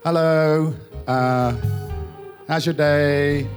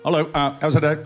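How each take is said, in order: First: It is said at normal speed. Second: It is said very fast, sped up.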